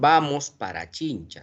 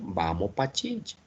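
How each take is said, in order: First: The word 'para' is said in full. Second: The word 'para' is shortened to 'pa'. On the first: "no dicen vamos para Chincha" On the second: "hablan así"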